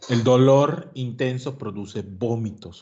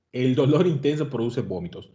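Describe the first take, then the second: First: "El dolor intenso produce vómitos" said slowly, each word weighed; slow emphasis. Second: Said in the usual way. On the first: Shown as a demonstration. Lecturer drilling a key fact into students, slow and emphatic.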